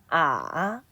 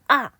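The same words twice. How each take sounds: First: The pitch dips very low, then rises. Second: The pitch drops sharply from high to low. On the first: "제일 낮은 음까지 내려갔다가 다시 올라갑니다" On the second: "사성은 오에서 일까지 떨어지면서 발음합니다"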